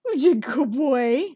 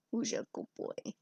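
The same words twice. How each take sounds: First: Slow, sing-song pet voice; pet talk. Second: A soft, breathy whisper to the pet. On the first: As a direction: praise the cat fondly. Talking to cat. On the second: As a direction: whisper it to the cat. Talking to cat, whispered. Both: Real, not acted.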